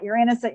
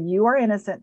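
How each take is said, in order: First: It is rattled off quickly without pausing. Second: It is said slowly, followed by a breath.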